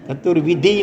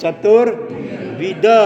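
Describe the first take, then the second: First: The word ends with an extra final 'i' vowel. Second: The word ends without any extra final vowel. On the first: It wrongly suggests a ritual rather than a kind. The speaker calls it wrong. "ચતુર્વિધિ નહીં" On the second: It means of four kinds. The speaker calls it right. "પણ ચતુર્વિધ"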